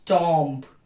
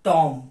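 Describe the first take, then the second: First: The final b is pronounced. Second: The final b is left out. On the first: The speaker calls it wrong. "टॉम्ब is wrong pronunciation" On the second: The speaker calls it right. "The correct is"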